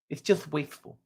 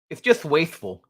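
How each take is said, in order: First: It is said in the speaker's ordinary voice. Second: It is said in an imitated, put-on accent.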